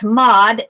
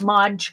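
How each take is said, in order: First: The word ends in a plain d sound. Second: The word ends in a dj sound. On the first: The speaker calls it right. "It's Mod, M O D" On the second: The speaker calls it wrong. "not Mod Podge"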